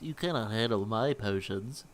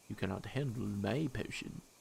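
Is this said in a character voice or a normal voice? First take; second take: character voice; normal voice. First: It is said in a put-on character voice. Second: It is said in a plain, ordinary voice.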